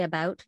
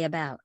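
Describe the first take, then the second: First: Canadian vowel in "about", mouth left neutral; Canadian pronunciation. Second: American open vowel in "about", lips pulled back; American pronunciation. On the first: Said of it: "So we say". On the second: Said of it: "the States say". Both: Shown as a demonstration.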